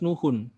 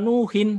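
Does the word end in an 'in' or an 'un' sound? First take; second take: un; in. First: The word ends with an 'un' sound. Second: The word ends with an 'in' sound. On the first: The speaker calls it right. "Harus nuhun. Di huruf terakhirnya harus diberi vokal doma" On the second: The speaker calls it wrong.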